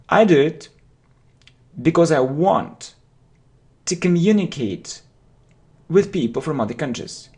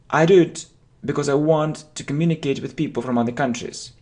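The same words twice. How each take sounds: First: The sentence is broken into parts with pauses. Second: The sentence is said in one go.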